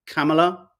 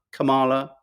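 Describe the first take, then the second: First: "Kamala" as KAM-uh-luh, rising; "Kamala" tried as KAM-uh-luh; stress on first syllable. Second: "Kamala" as kuh-MAH-luh; "Kamala" tried as kuh-MAH-luh; stress on second syllable. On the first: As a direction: say "Kamala" with the stress up front, short middle vowel. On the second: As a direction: say "Kamala" with a long, stressed middle "ah". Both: Shown as a demonstration. Trying out two pronunciations of name.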